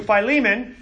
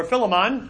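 First: Philemon said fye-LEE-mun; Philemon as fye-LEE-mun, long vowels. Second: Philemon said FIL-uh-mon; Philemon as FIL-uh-mon, ending in a full "mon"; Philemon with short i. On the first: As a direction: stress the LEE in Philemon, first syllable "fye". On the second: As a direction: stress the first syllable of Philemon, "FIL". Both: Shown as a demonstration. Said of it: "depending on how you're pronouncing it".

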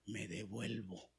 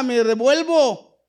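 First: Meek return. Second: Much higher and louder, slow and firm; loud emphatic. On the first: Acted. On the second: Real, not acted. Preacher shows how he would turn back, loud and firm. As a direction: shout the decision, no questions. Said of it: "Yo hubiera corrido".

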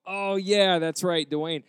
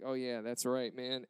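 First: Loud, higher burst of mock remembering; feigned recognition. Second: Deflated recognition. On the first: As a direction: pretend it has suddenly all come back. Feigns remembering the name just supplied. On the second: Retold or imitated. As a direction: concede it feebly, letting the voice drop. Gives up playing it off.

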